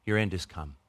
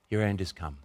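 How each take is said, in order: Both takes have the same delivery.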